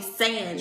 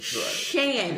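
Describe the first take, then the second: First: The name starts with an 's' sound. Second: The name starts with an 'sh' sound. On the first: This is how the in-laws say the name. The speaker calls it wrong. "His family calls me Sand" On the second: This is how the name is really said. The speaker calls it right. "It's Shan, like Shannon"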